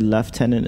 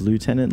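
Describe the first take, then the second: First: The first syllable sounds like 'lef'. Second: The first syllable sounds like 'loo'. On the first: "like in New Zealand, wouldn't they say Lieutenant" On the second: "instead of Lieutenant"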